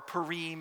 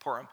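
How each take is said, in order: First: The word is said in a broad, posh-sounding way. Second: The word is said in a plain, ordinary way. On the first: The speaker is being pretentious. "if you want to be, you know, hoity-toity and do broader pronunciation" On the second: This is how people actually say it. "Purim is really what they call it"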